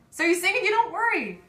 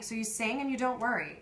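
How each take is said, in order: First: Much higher and louder, insistent refrain; emphatic exclamation. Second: Said in the usual way. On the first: Acted. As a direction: belt out the reassurance at high pitch. Refrain repeated as emphatic climax.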